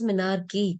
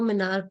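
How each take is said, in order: First: The word ends with a final 'ee' vowel. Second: The word ends without a final 'ee' vowel. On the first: The speaker calls it right. "You should be clear it is मिनार्की" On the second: The speaker calls it wrong. "कुछ लोग मिनार्की को मिनार्क बोलते हैं"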